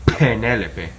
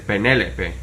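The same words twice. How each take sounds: First: The first P is strong, with a puff. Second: The first P is soft, with little air. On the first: The speaker calls it wrong. "You wouldn't say" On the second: The speaker calls it right. "It's more like you would say"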